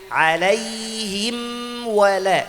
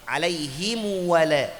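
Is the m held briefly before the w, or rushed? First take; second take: held; rushed. First: The m is held briefly before the w. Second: The m is rushed and rounded into the w. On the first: The speaker calls it right. "Kasih haknya dulu mim, ada tawassut" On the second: The speaker calls it wrong. "Kalau kita buru-buru masuk waw, jadi huruf mim ikut kayak dhamma"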